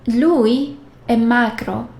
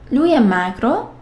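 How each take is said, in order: First: It has the intonation of a statement. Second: It has the intonation of a question. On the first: He is thin. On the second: Asks whether he is thin.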